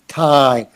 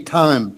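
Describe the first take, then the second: First: The vowel is said with a wide-open mouth. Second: The vowel is said with a narrower mouth. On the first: The speaker calls it right. "open your mouth. ... That I has to come from way down deep in your throat" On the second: The speaker calls it wrong. "There's a little tendency to say time"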